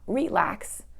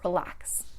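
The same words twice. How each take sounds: First: The stress is on the first syllable. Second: The stress is on the second syllable. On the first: The speaker calls it wrong. "not relax" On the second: The speaker calls it right. "the stress is going to go on the last syllable"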